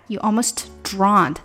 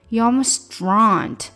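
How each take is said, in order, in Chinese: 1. almost 的 t 发音很清楚。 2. almost 的 t 会和 drowned 连读。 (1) "当然你这样说也是没有问题的哈" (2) "Almost 的这个t 跟后面drowned 连起来了"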